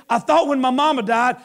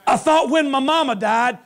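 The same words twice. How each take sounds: The two takes are said the same way.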